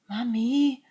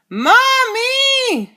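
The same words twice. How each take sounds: First: The word is said very quietly. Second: The word is yelled very loudly.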